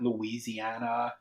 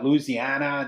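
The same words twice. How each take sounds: First: It is said with a non-local, outsider pronunciation. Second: It is said with a local Southern pronunciation. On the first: This is how outsiders say it. The speaker calls it wrong. "not Louisiana" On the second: This is how locals say it. The speaker calls it right. "he gave me all the true pronunciation, like Louisiana"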